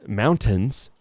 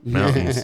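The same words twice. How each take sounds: First: The T in the middle is clearly pronounced. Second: The T in the middle is dropped. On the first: This is how outsiders say it. The speaker calls it wrong. "don't say uh" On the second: This shows the speaker is a local. The speaker calls it right. "We say mountains, mountains, no T"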